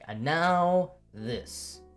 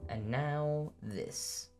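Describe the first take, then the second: First: It is said like an energetic announcer. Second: It is said in a resigned, weary way.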